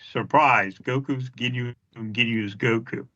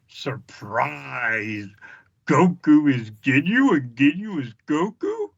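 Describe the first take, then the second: First: It is said in a flat, uninteresting way. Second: It is said in an over-the-top, cheesy way. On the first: "it didn't sound as cheesy" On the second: "it didn't sound as cheesy as it did. I remember it being the first time"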